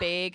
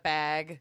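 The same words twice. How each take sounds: First: "Big" said as "bayg", long A; regional "bayg". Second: Said in the usual way. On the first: Shown as a demonstration. Friend mocking local speech, "bag" pronounced "bayg". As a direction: say "bag" with the vowel of vague. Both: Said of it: "Big instead of bag".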